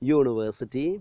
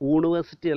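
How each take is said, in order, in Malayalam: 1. ഈ വാക്ക് 'y' ശബ്ദത്തിലാണ് തുടങ്ങുന്നത്. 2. ഈ വാക്ക് സാധാരണ സ്വരാക്ഷര ശബ്ദത്തിലാണ് തുടങ്ങുന്നത്. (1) "പകരം യൂണിവേഴ്സിറ്റി" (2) "യൂണിവേഴ്സിറ്റി അല്ല നമ്മൾ ഉച്ചരിക്കൽ"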